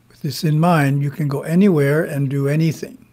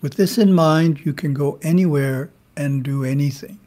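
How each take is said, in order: First: It is said with little emphasis. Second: It is said with strong emphasis.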